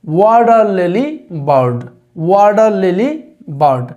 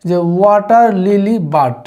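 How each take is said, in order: First: ওয়াটার লিলি বার্ড with flapped "wadar" and "leli"; the corrected native-like way; correct pronunciation. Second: Slow ওয়াটার লিলি বাড with "bad" instead of bird; the common mistaken way; wrong pronunciation. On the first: Teacher modelling the right pronunciation. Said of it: "লিলি না বলে বলবে হচ্ছে লেলি". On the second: Teacher showing learners the wrong way. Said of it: "এটি একটি ভুল pronunciation". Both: Shown as a demonstration.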